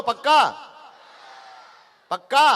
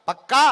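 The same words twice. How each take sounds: First: Loud rising shout with a laugh; shouted rally call. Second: Said in the usual way. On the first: Real, not acted. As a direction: fire up the crowd, louder each time. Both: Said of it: "जोर से बोलो".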